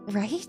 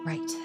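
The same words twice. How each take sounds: First: The voice rises at the end like a question. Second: The voice falls at the end like a statement.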